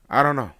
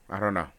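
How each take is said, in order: First: Loud, high I don't know; loud exclaim. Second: Said in the usual way. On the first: Real, not acted. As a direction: blurt it out loudly. Exclaimed then repeated flatly.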